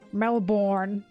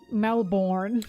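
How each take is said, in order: First: It is said in an American accent. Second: It is said in an American accent.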